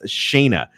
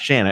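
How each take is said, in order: First: The first vowel sounds like the one in 'say'. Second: The first vowel sounds like the one in 'sand'. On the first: The speaker calls it right. "it's Shayna" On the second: The speaker calls it wrong. "it's not Shanna"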